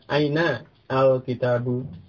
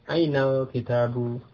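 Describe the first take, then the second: First: The article is said apart from the word before. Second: The article is joined to the word before. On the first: "Kalau dibaca terpisah itu juga boleh" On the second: "baiknya itu bersambung"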